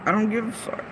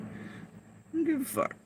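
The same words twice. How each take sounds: First: Said in the usual way. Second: Quiet dismissal. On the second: Real, not acted. Dismissive repeat of earlier line.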